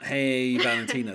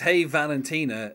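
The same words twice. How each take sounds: First: The stress falls on Hey, not on Valentina. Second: The stress falls on Valentina, not on Hey. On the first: The speaker calls it wrong. "the emphasis isn't on the "Hey."" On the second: The speaker calls it right. "It's on the notes that go down as he sings Valentina"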